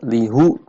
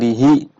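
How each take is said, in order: First: The final syllable ends in an 'u' vowel. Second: The final syllable ends in an 'i' vowel. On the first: This reading is heavier to pronounce. The speaker calls it wrong. "Berat lihu" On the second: This reading is lighter to pronounce. The speaker calls it right. "lebih ringan lihi"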